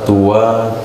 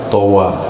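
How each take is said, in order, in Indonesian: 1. Vokal pertama adalah bunyi u. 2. Vokal pertama adalah bunyi a terbuka. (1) "boleh dibaca tua" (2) "Yang lebih fushah towa"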